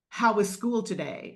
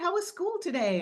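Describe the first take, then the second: First: It is asked in a serious, stern tone. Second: It is asked in a light, casual tone. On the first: The asker already knows something is wrong. "that change in tone" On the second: It is a friendly everyday question. "it was honey before"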